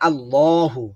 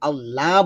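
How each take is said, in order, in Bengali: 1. ল মোটা, মুখ ভরে। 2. ল পাতলা আর হালকা। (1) "ল বলতে হবে ল। মুখ ভরে আওয়াজ বের করতে হবে।" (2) "বললে হবে না"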